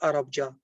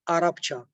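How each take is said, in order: First: The consonant before the ending is b. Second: The consonant before the ending is p. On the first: The speaker calls it wrong. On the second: The speaker calls it right.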